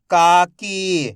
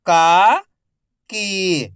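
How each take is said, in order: First: "काकी" joined as one word, long vowels; syllables blended. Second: "काकी" split into का, pause, की, each drawn out; syllable by syllable. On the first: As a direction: say "काकी" in one connected stretch. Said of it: "तो मिलके बन जाएगा". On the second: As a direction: sound out "काकी" slowly, का rising, की falling. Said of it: "एक एक अक्षर का उच्चारण". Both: Shown as a demonstration.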